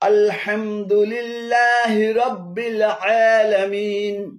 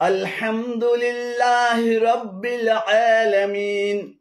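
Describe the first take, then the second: The two takes are said the same way.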